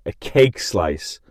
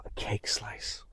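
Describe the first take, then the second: First: Slow, deliberate "A cake slice"; unhurried reveal; slow announcement. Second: Hushed whisper "a cake slice"; whispered reveal. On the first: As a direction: draw out the words. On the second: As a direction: breathe it out like a secret. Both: Shown as a demonstration. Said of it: "Clap my Macau".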